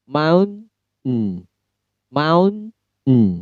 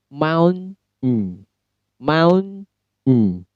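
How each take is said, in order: Both takes have the same delivery.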